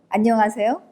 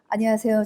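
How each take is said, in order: First: 안녕 is said clearly, then a short pause. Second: The greeting is rushed and 안녕 is barely heard. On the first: The greeting sounds sincere. The speaker calls it right. "안녕을 명확하게 얘기하죠" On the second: The greeting sounds insincere. The speaker calls it wrong. "대부분이 이렇게 인사하십니다. 안녕도 안 들려요"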